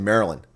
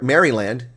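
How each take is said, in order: First: The word is said in a shortened, run-together form. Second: Every syllable of the spelling is clearly sounded. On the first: "We say Maryland" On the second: "it's spelled Mar- Maryland"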